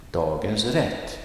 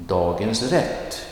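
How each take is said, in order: First: Dagens rätt, stress on rätt; set phrase stress. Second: Dagens rätt, rise on dagens; set phrase stress. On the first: Teacher repeating the set expression. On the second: Teacher modelling a set expression. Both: Shown as a demonstration. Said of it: "Next one".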